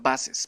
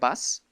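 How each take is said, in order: First: The word is said as two syllables. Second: The word is said as one syllable. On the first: The speaker calls it right. "sino buses, para que se entienda que estamos usando un posesivo" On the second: The speaker calls it wrong. "ya no se pronunciaría bus"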